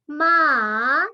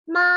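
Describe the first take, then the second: First: It is said with the third tone. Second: It is said with the first tone. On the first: "nada ketiga" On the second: "Untuk nada pertama"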